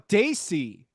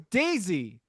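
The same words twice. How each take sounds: First: The middle consonant is a hissing s sound. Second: The middle consonant is a buzzing z sound. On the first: The speaker calls it wrong. "But you said it was an S" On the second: The speaker calls it right. "it's actually a, Z- a Z sound"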